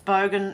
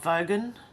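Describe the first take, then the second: First: The word starts with a B sound. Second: The word starts with a V sound. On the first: The speaker calls it right. "It's bogan" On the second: The speaker calls it wrong. "not vogan"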